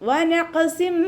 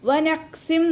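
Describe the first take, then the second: First: The q sound is released with a bounce. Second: The q sound is cut short without a bounce. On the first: The speaker calls it right. "അതുപോലെ ഓതാൻ ശ്രദ്ധിക്കുക" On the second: The speaker calls it wrong. "വനഖ്സിം നോദിപ്പോവരുത്"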